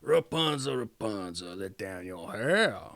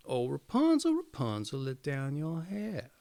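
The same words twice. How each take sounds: First: Low witch voice calling up. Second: Calling out. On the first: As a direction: call up to the tower like a witch. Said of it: "she would stand below and cry". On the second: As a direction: call up to the tower. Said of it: "while she called out". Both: A narrator's reading.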